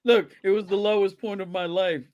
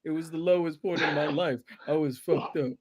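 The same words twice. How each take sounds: First: Imitating a hollow apology; mock apology. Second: Quiet mock remorse; imitating a canned apology. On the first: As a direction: fake remorseful excuse. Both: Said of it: "That's, that's always the line".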